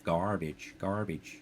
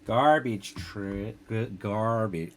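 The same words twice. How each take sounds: First: Said in the usual way. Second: Slow, drawn-out American accent attempt; bad American accent. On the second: Retrying the American accent on garbage, slowly. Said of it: "worst American accent".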